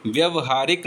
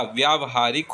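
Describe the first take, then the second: First: व्यवहारिक begun with short "vya"; wrong short vowel. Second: व्यावहारिक begun with long "vyaa"; correct long vowel. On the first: Teacher showing the mistake, व्यवहारिक with short first vowel. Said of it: "व्यवहारिक नहीं होता". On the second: Teacher giving the correction, व्यावहारिक with long first vowel. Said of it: "व्यावहारिक होता है". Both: Shown as a demonstration.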